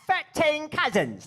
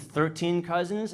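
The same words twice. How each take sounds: First: Thirteen begins with an F sound. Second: Thirteen begins with a TH sound. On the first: It imitates how English people say it. The speaker calls it wrong. "they pronounce it with like an F sound, like Frank" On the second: It is the speaker's own way of saying it. The speaker calls it right. "Don't you mean"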